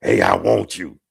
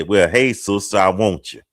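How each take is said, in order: First: Low-pitched, blunt pick-up line; mock seduction, pitched well down; creepy come-on. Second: Mock-bold party approach; blunt come-on. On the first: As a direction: drop it low, like a creepy proposition. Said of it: "That's creepy". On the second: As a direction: put it bluntly, like a direct proposition. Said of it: "can I be that blunt".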